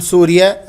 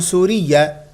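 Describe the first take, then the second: First: سوريا with a short, gliding "-ya"; easier pronunciation. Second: سوريا with a stressed "-iyya" ending; alternative pronunciation. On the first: Teacher recommends the easier form, سوريا as "surya". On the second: Teacher offers another possible form, سوريا as "suriyya". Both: Shown as a demonstration. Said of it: "أسهل".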